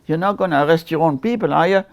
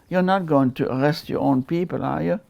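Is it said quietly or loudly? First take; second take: loudly; quietly. First: It is said loudly, almost yelled. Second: It is said quietly and calmly.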